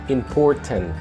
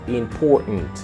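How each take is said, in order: First: The middle t is clearly sounded. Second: The middle t is silent, replaced by n. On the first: The speaker calls it wrong. "not important" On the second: The speaker calls it right. "the T A is mute"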